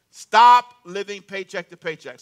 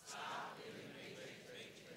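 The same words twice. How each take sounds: First: Slow and loud, each word pressed; loud, slow declaration. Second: Whisper. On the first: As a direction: proclaim it for the crowd to repeat. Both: Shown as a demonstration. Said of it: "Say that with me".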